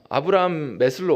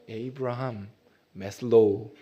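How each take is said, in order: First: The name is said at a normal pace. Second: The name is said slowly, English style.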